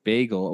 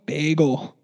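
First: "Bagel" repeated back in the same way; echoing bagel. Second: "Bagel" said the New York way. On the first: Agreeing with her co-host, repeating "Bagel". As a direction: echo "Bagel" just as it was said. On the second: Asking whether New Yorkers say it, "Bagel" said their way. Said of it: "don't they say bagel". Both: Shown as a demonstration.

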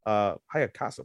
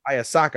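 First: Hayakasa said with the k and s swapped; Hayakasa, syllables jumbled, said quietly; mispronounced name. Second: Hayasaka said correctly, ha-ya-sa-ka; corrected name. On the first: Retold or imitated. Friend saying the name wrong. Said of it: "What the fuck?". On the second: Shown as a demonstration. Friend correcting the name to Hayasaka. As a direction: Hayasaka with the syllables in the right order. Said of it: "You say Hayakasa?".

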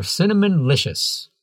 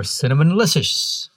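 First: Cinnamon-licious with a clean "LISH-us" ending; careful correct retry. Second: Cinnamon-licious with a slushy, tangled ending; slurred slip. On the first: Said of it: "You said cinnamon just like a pro". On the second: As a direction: fumble the end of cinnamon-licious into "lishes". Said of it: "Wait, no". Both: Real, not acted.

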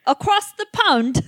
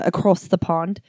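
First: High, slow, hammed-up British accent; ridiculous British accent, close to laughing; exaggerated British accent. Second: Slight put-on British accent; a half-hearted touch of British accent; lightly faked British vowels; bad British accent. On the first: Shown as a demonstration. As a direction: overdo a bad British accent, pitched way up. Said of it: "Try it again". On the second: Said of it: "that was a bullshit accent".

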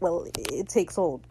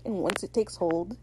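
First: Halting, falling, anticlimactic finish; deflated. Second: Soft, hanging build to an unfinished threat; mock dramatic. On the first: Retold or imitated. Izzy after the music cuts, deflated and halting. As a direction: stumble back into it, the drama gone. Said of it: "then the music cuts". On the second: Izzy warns over dramatic music, mildly ominous. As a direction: intone it quietly, leaving the end suspended. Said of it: "there's, like, dramatic music playing in the background".

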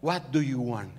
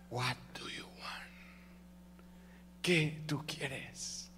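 First: Said in the usual way. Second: Slow, soft near-whisper; hushed divine answer. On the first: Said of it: "Y ahora esta expresión dice". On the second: Acted. The Lord answers the one calling, slow whisper. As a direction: whisper it slowly, drawing out each word. Acting God's intimate answer.

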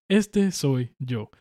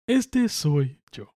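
First: Slow, lightly voiced cartoon rat; Remy rat voice. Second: Slow, drawn-out cartoon rat voice; Remy rat voice. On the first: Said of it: "Así como con la voz de Ratatouille". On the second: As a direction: say it slowly like a little cartoon rat. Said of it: "como en la película de Ratatouille".

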